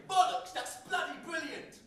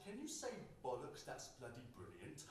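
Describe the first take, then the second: First: "Bollocks, that's bloody brilliant!" shouted high and loud in British; shouted British swearing. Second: Lightly voiced grinning American, fading softer; a hint of an American fan asking him to swear; mock American asking. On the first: Retold or imitated. Poet shouting British slang for grinning American fans, loud and high. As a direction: belt out "Bollocks" like a proud Brit showing off. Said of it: "I'd say". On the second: American fans grinning, asking him to say British words, light accent. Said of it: "Grinning, they'd ask".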